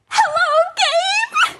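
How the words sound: It is said in an excited tone.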